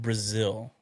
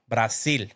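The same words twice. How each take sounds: First: It is said with an American English accent. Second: It is said with a Spanish accent. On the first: "For those who didn't understand what I said" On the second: "No, it doesn't sound the same"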